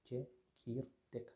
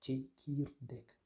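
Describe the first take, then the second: First: Slow repeat. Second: Tchekirdek said slowly, every syllable apart; slow model word. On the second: Teacher slowly models tchekirdek for the class. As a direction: spell out tchekirdek slowly for learners. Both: Shown as a demonstration. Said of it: "On a le mot".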